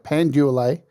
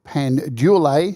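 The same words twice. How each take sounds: First: The name is said like 'pan dual-ay'. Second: The name is said like 'pan delay'. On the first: The speaker calls it right. "I've got to say it right" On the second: The speaker calls it wrong. "Sorry, I've got to say it right"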